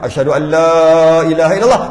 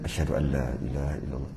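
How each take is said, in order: First: It is said loudly. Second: It is said quietly.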